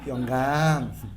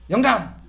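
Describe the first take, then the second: First: It is said in a warm, affectionate tone. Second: It is said in a curt, cold tone. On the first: The husband is addressed kindly, as one would a beloved pet. The speaker calls it right. "이렇게 불러" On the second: The husband is addressed without warmth. The speaker calls it wrong. "이렇게 부르지 마시고"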